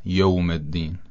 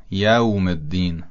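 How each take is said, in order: First: یوم said "yowm", in a Persian accent; Persian-accented یوم with an o vowel. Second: یوم said "yawm", with an open a; یوم with a clear a before the w; fatha on yawm. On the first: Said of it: "و نه یوم الدین". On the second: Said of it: "کلمهٔ یوم یش فتحه داره". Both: Shown as a demonstration.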